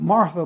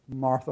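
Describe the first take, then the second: First: It is said in a harsh, scolding tone. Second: It is said in a gentle, compassionate tone.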